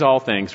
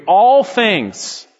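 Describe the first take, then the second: First: Said in the usual way. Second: ALL THINGS punched higher and louder, falling at the end; emphatic. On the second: Shown as a demonstration. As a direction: hit "all things" hard. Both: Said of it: "It's emphatic".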